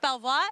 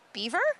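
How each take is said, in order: First: The name is said the French way. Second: The name is said the English way.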